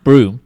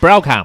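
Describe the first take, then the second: First: It is said as one syllable, 'broom'. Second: It is said as two syllables, 'brow-am'. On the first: This is how the name is actually said. "pronounced broom" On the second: This is how the spelling would suggest saying it. "How is that pronounced broom? It's Browham"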